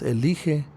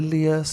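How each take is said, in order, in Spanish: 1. El nombre termina con sonido 'íje'. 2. El nombre termina con sonido 'ías'. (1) "si fuera correcto decir eh, Jehová, entonces dirían" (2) "en lugar de Elías"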